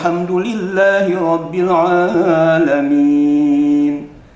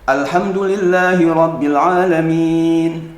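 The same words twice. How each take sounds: First: The opening 'a' sound is dropped in linking. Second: The opening 'a' sound is clearly pronounced. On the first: "ketika di wasol, istilahnya terjepit dengan lafaz yang lain, mesti hilang" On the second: "ketika di awal mesti ada"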